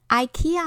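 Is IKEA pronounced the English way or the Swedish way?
English. It is pronounced the English way. This is not very correct. The speaker calls it wrong. "是美国和英国人在念的"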